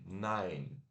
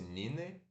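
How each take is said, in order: First: It is said with English pronunciation. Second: It is read with Portuguese letter sounds. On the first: The speaker calls it right. "mas se pronuncia N A e curto N" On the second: The speaker calls it wrong. "como se fosse Nine"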